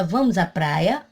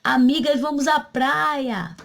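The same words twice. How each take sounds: First: "Vamos à praia" lifting at the end; question intonation. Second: "vamos à praia" high, PRAIA stretched then falling; exclamation. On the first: Teacher demonstrates asking friends to the beach, questioning. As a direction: ask "Vamos à praia" with PRAIA rising. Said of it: "Uma pergunta". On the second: Teacher demonstrates rallying friends to the beach, exclaiming. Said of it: "seria uma exclamação". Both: Shown as a demonstration.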